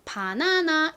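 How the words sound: It is said with Korean vowels, all as ah. "한국에서는 이것을 바나나 이렇게 발음을 하지만"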